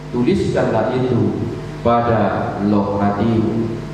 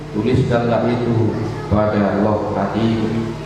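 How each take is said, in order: Both takes have the same delivery.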